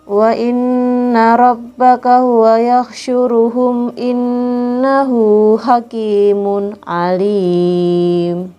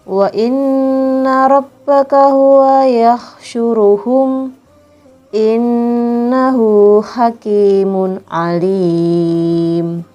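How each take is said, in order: First: The verse is read straight through without pausing. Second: The verse is read with a pause inside it.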